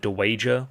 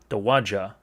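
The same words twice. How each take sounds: First: The middle syllable sounds like 'way'. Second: The middle syllable sounds like 'ah'. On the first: The speaker calls it wrong. "like you would wager a bet" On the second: The speaker calls it right. "with that mi- middle syllable, we're going to be hitting an ah"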